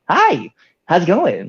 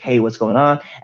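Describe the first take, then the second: First: It is said with very high pitch and energy. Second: It is said at normal pitch and energy.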